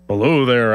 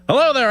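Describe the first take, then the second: First: It is said in a big bear voice. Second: It is said in a squirrel voice.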